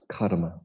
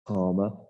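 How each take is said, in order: First: The word is said with a flicked r. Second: The word is said without a flicked r. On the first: It means stored-up action that compels behavior. The speaker calls it right. "you've got to flick your tongue if you want to say it right" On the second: It means sensual enjoyment. The speaker calls it wrong. "some people mispronounce"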